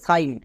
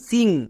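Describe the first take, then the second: First: It sounds like 'sign', ending in n. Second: It ends in an ng sound. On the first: The speaker calls it wrong. "অনেকে একে ভুল করে উচ্চারণ করে সাইন" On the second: The speaker calls it right. "আই এন জি এর জন্য ইং sound হয়"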